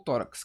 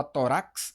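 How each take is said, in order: First: Tórax as TÓ-rax, weight at the start; tórax with a weak final syllable; stress on first syllable. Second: Tórax said as to-RAX, mis-stressed; tórax with the weight on the final syllable; stress on last syllable. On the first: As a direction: lean on TÓ in tórax. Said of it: "a gente fala tórax". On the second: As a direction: hit the RAX at the end of tórax. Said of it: "a gente fala tórax ou". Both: Shown as a demonstration.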